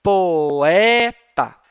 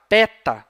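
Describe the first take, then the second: First: POETA stretched as Po-EEE-ta, loud; vowels separated. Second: PETA with one E, the O lost; vowels merged. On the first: Teacher showing the distinction the trema marks, vowels separated. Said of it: "Você vai pronunciar separadamente". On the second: Teacher showing the mistake to avoid, vowels merged. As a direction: say peta for poeta, louder. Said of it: "pra você não pronunciar". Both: Shown as a demonstration.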